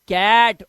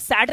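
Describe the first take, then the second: First: The word begins with a k sound. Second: The word begins with an s sound. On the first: The speaker calls it right. "सी के बाद ए अगर आ जाता है तो ये क हो जाता है" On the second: The speaker calls it wrong. "अब इसे साठ नहीं पढ़ेंगे या सैट नहीं पढ़ेंगे ना"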